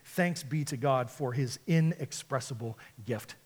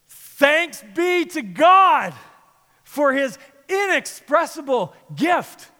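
First: It is read plainly, without much feeling. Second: It is said with strong, heartfelt emotion.

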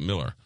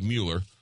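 First: The first vowel sounds like 'mill'. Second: The first vowel sounds like 'mew'. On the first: The speaker calls it right. "but you pronounce it Miller" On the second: The speaker calls it wrong. "It looks like Mueller"

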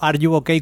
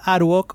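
First: The name is said as three English words. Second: The name is said Spanish-style as one word. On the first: The speaker calls it right. "como se debería de pronunciar realmente" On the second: The speaker calls it wrong. "que ni yo lo hago"

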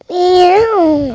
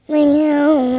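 First: It is said loudly. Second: It is said softly.

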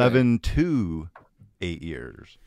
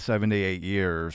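First: Each number is pronounced clearly and separately. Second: The numbers are slurred together into one word. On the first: It means seven to eight years. The speaker calls it right. "Let me enunciate" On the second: It sounds like seventy-eight years. The speaker calls it wrong. "I drew that all together"

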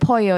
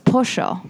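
First: It is said with a standard Spanish accent. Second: It is said with an Argentinian accent.

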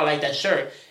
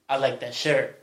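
First: It is said in a plain, casual tone. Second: It is said in a suggestive, flirtatious tone. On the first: It is just an ordinary compliment. "it wasn't like you say, oh, I like that shirt" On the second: He was hitting on him. "It was like"

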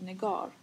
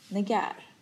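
First: The name is said with its original sounds. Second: The name is said with altered sounds. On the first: This is the speaker's true name. The speaker calls it right. "jag heter Negar" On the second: Someone else mispronounced the name. The speaker calls it wrong. "men uttalar det fel"

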